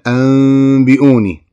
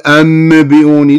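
First: A hidden nasal m sound comes before the b. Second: A clear n sound comes before the b. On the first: The speaker calls it right. "لا دا أقول أنبئوني" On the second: The speaker calls it wrong. "ما دا أقول أنبئوني"

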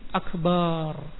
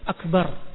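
First: The last vowel is drawn out long. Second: The last vowel is short. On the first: The speaker calls it wrong. "menambah alif dalam kalimat akbar menjadi akbar" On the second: The speaker calls it right. "kalimat akbar"

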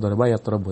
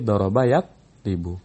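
First: The middle vowel of the second word is not i. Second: The middle vowel of the second word is i. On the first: The speaker calls it wrong. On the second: The speaker calls it right. "Tapi doroba yatribu"

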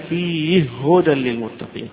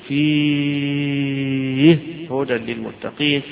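First: The long vowel is held for a short time. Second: The long vowel is held for a long time. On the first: "بالقصر" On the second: "والمد"

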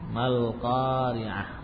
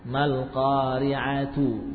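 First: The word ends with a soft 'h' sound. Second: The word ends with a full 'tu' syllable. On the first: The reading stops on this word. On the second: The reading continues past this word.

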